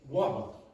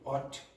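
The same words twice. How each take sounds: First: The word ends with a glottal stop instead. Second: The word ends with a clearly released t sound. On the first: The speaker calls it right. "You say what. Okay? It's very, very common to finish in that glottal stop" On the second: The speaker calls it wrong. "You don't say what"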